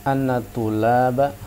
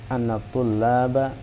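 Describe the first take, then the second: The two takes are said the same way.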